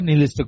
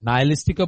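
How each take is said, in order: First: The first syllable sounds like 'ni'. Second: The first syllable sounds like 'nai'. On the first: "নিহিলিস্টিক বলে" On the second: "নাইলিস্টিকও বলে"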